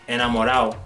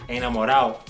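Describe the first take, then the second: First: The d before the final o is dropped. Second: The d before the final o is dropped.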